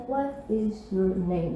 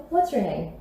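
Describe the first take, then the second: First: Slow, low "What is", words held apart; soft, drawn-out "What is your name?", nothing contracted; every syllable pronounced. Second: "What's your" run together in one go; natural spoken "What's your name?"; contracted form. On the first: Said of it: "com todas as sílabas". ("What is" devagar, com todas as sílabas) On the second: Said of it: "a forma que você vai ouvir". ("What's" contraído, natural) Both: Shown as a demonstration.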